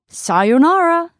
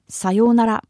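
First: It is said with strong English-style stress. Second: It is said flat with no strong intonation. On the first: "in English we often pronounce it as sayonara" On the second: "It's just flat sayonara"

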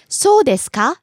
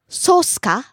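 First: The full 'desu ka' is pronounced. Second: It is shortened to 'su ka'.

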